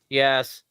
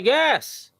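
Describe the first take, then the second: First: The word sounds annoyed and irritated. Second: The word sounds excited and upbeat. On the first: "That's an annoyed yes" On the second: "that's like an excited yes"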